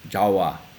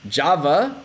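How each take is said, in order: First: The middle consonant is a W sound. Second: The middle consonant is a V sound.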